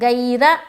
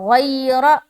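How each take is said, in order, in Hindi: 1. यह सादे, सख़्त g की आवाज़ से शुरू होता है। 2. यह भारी, हलक़ी gh की आवाज़ से शुरू होता है। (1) "गैरा नहीं बोलना" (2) "ऐसा बोलना"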